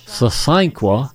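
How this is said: It is said in a soft southern way.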